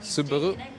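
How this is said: It is said with a Japanese pronunciation. "In the Japanese original pronunciation, it's also kind of similar"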